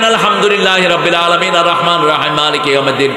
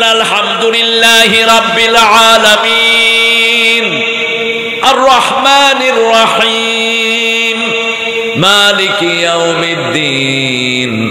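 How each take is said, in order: First: It is rushed in one breath without pauses. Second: It is drawn out, pausing after each verse. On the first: It is recited hastily without care. The speaker calls it wrong. "এইভাবে হদর পড়া হয়, হদর পড়বেন না।" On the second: It is recited carefully, leaving room for a reply. The speaker calls it right. "টেনে টেনে পড়েছেন ... প্রত্যেক আয়াতে থেমে যান।"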